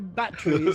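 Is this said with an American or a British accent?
British. The t is a clear t sound. This is how the other person says it. "You say batteries"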